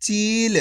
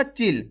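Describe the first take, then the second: First: चील with a long, held ee; the long-vowel चील, sustained; drawn-out long vowel. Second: चिल with a quick, short i; the short-vowel चिल, not stretched. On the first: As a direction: stretch the ee in चील before the l. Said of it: "खींच के". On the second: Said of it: "ऐसे नहीं पढ़ना". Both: Shown as a demonstration.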